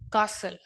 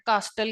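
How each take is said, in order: First: The first vowel is long 'ah', no t. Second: The t is sounded in the middle. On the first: The speaker calls it right. "British accent" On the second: The speaker calls it wrong. "जिसको हम गलत pronounce करते हैं, कास्टल कहते हैं"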